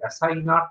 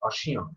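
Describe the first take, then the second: First: Said following its English spelling, final t sounded. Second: Said the French way, nasal ending, no t. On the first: The speaker calls it wrong. "একেবারেই উচ্চারণ থেকে ভুল" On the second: The speaker calls it right. "ফরাসি উচ্চারণে এটা হবে অসিয়ন"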